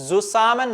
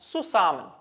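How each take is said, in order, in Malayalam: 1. ഈ വാക്ക് Z ശബ്ദത്തിലാണ് തുടങ്ങുന്നത്. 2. ഈ വാക്ക് S ശബ്ദത്തിലാണ് തുടങ്ങുന്നത്. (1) "സുസാമൻ എന്നല്ല" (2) "സെഡ് വരുന്ന സമയത്ത് എസ് ആയിട്ട് ഉച്ചരിക്കണം"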